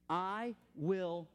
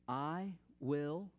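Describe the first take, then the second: First: It is spoken at full normal volume. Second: It is spoken quietly and softly. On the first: "say it full voice" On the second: "just quietly make this declaration"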